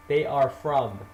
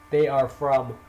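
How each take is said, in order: Both takes have the same delivery.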